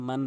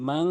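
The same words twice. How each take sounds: First: Said in the usual way. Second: মাং ending in a ringing ng; মাং with the n turned into a nasal ng; মাং said with nasal ghunnah. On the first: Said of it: "একটি হচ্ছে মান বলে". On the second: Shown as a demonstration. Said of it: "মাং বলতে হবে".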